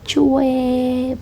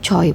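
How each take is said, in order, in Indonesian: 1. Vokalnya diucapkan seperti 'weh'. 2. Vokalnya diucapkan seperti 'oy'. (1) "harus benar ini bacaannya yang benar" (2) "Yang sering kalian baca yaitu Choi"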